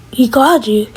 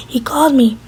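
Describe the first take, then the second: First: CALLED pushed up in pitch as a question; questioning echo. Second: Said in the usual way. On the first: Acted. Danny questions the ex-wife's claim, questioning echo.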